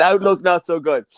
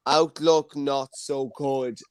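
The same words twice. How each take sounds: First: Said in the usual way. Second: Slow, drawn-out eight ball verdict; slow reading. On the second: Acted. Host reading the magic eight ball's answer to the room, slowly. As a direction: read the answer out slowly and deliberately.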